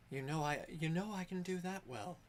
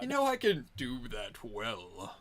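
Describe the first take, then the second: First: Higher character voice sinking on the last words; voice deepening at end. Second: Hammed-up deep character voice; exaggerated deep voice. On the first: Acted. Game master's character answers a farewell, voice deepening at the end. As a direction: start light, let the end drop deeper. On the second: Game master replays the teased line, exaggeratedly deep. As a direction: parody your own voice getting deep. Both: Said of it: "Her voice got deep at the end".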